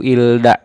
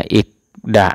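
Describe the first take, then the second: First: An l sound comes before da. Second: A k sound comes before da. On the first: The speaker calls it wrong. "Ilda salah" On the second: The speaker calls it right. "Maka itu dibacanya ikda ya"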